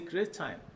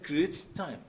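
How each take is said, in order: First: The two t sounds merge into one. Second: Both t sounds are pronounced separately. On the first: The speaker calls it right. "merging the two together, you will say" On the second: The speaker calls it wrong. "not necessarily"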